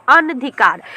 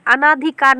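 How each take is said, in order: First: अनधिकार with a short a, an-dhikaar; teacher gives the correct अनधिकार, no long aa; correct form. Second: अनाधिकार with a long aa after न, a-naa-dhikaar; teacher says अनाधिकार with the long vowel; wrong form. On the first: शिक्षक छात्रों को सही रूप बताते हुए: अनधिकार. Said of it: "अनाधिकार नहीं होता है". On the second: शिक्षक छात्रों को गलत रूप बताते हुए: अनाधिकार. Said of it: "नहीं होता है". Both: Shown as a demonstration.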